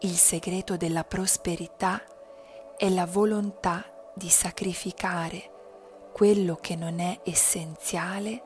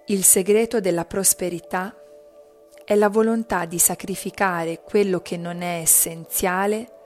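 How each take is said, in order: First: It is spoken in a quieter voice. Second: It is spoken in a loud voice. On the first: "poi più bassa" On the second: "Prima a voce alta"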